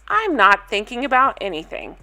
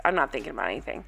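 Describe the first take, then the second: First: Said in the usual way. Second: Much lower and softer, mocking flat repeat. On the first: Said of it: "Stephanie to camera says". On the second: Mocking Stephanie's words to viewers, low and soft. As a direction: echo her words under your breath with scorn. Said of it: "That's literally what she said".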